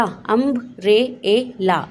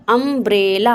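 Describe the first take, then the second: First: umbrella drawn out very slowly, the first अ held long; slow stretched. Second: Said in the usual way. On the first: Shown as a demonstration. Teacher slowly stretches the word for children. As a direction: stretch out umbrella so every sound is heard. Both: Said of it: "आप उसे उसके phonic sound से पढ़ेंगे".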